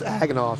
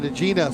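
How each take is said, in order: First: The name ends in an 'off' sound. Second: The name ends in an open 'ah' vowel. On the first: The speaker calls it right. "Nope, it's Aganoff" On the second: The speaker calls it wrong. "we we were pronouncing it Agena so many times"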